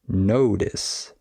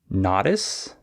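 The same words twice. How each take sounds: First: The first vowel is an 'oh' sound. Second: The first vowel is an 'ah' sound. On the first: The speaker calls it right. "the correct pronunciation is notice. You just need to change the ah to an o" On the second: The speaker calls it wrong. "maybe you say notice"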